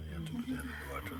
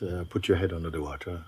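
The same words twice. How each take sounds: First: Hushed and fast, almost under the breath; quick whispered repeat. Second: Said in the usual way. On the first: Real, not acted. Teacher whispers the instruction to the seeker, fast and hushed.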